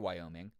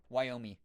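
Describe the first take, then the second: First: The final ng sound is fully pronounced. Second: The final ng sound is left off. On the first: "I say Wyoming" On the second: "where they kind of leave off the N G at the end"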